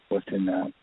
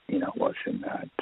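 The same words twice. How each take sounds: First: Said in the usual way. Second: Hushed whisper. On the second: Retold or imitated. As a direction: whisper "what's in that" unvoiced, hushed. Retold peek into sealed room.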